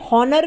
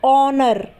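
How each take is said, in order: First: The word begins with an h sound. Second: The word begins with no h sound. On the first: The speaker calls it wrong. "बहुत से लोग इसे हॉनर भी बोलते हैं, जो कि बिल्कुल गलत है" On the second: The speaker calls it right. "यानी कि हम एच को नहीं बोलेंगे"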